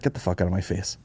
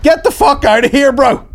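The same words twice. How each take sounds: First: Muttered brush-off. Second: High, loud, hammed-up outburst; exasperated shout. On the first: Acted. Hotel guest to someone offering to carry bags, muttered brush-off. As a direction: mutter it under your breath, dropping away. Acted brush-off to bag carrier. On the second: Guest fed up with the rambling host, mock furious shout. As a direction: explode at someone who won't stop talking.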